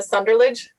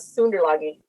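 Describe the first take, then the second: First: The name is pronounced with English sounds. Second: The name is pronounced with German sounds.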